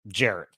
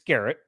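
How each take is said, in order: First: The name begins with a soft J sound. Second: The name begins with a hard G sound. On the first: Other people say the name this way. The speaker calls it wrong. "People call me Jarrett" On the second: This is how the name really goes. The speaker calls it right. "it's Garrett"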